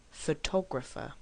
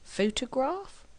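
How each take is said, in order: First: Photographer stressed on the second syllable TO. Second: Photograph with the weight on PHO; stress on PHO. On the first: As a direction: land on TO in photographer. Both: Shown as a demonstration. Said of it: "Which word is it?".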